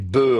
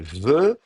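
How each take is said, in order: First: The first consonant is a stop, like b. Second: The first consonant is a fricative, like v. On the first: "au lieu de prononcer be" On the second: "fricatives si elles sont précédées d'un élément vocalique"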